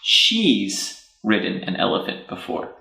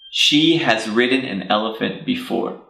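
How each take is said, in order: First: The word has is reduced to an S sound. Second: The word has is said as a separate word.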